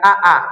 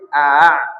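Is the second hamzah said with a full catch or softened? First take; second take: full catch; softened. First: The second hamzah has a full glottal catch. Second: The second hamzah is softened without a catch. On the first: The speaker calls it wrong. "jadi jangan a a" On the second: The speaker calls it right. "tapi a"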